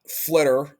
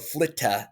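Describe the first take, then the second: First: The name is said the speaker's own usual way. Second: The name is said the way Europeans say it.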